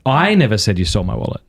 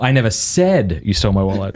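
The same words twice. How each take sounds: First: "I" hit hardest, rest of the sentence lighter; stress on I. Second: "said" hit hardest, the rest lighter; stress on said. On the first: Host showing how stress changes meaning, punching "I". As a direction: lean on "I" in "I never said you stole my wallet". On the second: Host showing how stress changes meaning, punching "said". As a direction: lean on "said" in "I never said you stole my wallet". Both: Shown as a demonstration. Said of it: "you emphasize any of those words".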